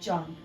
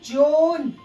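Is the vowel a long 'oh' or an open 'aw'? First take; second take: open aw; long oh. First: The vowel is an open 'aw' sound. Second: The vowel is a long 'oh' sound. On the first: The speaker calls it right. "ये भी है जॉन" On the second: The speaker calls it wrong. "जोन नहीं है guys"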